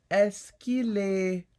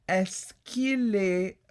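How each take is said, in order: The two takes are said the same way.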